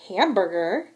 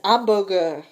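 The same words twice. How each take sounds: First: The starting h sound is pronounced. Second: The starting h sound is silent.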